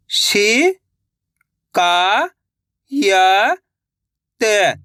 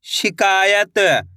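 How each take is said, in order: First: "शि-का-य-त" each syllable held apart, very slow; sounding out slowly. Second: Said in the usual way. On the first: Shown as a demonstration. Teacher showing children how to sound out a word. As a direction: sound out "शि-का-य-त" one syllable at a time. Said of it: "एक एक अक्षर का उच्चारण करके". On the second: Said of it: "तो मिलके बन जाएगा".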